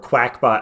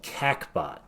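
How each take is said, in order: First: The name begins with a 'kwak' sound. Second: The name begins with a plain 'kak' sound. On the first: "I've heard it pronounced Quackbot" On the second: "I want to call it CACBot"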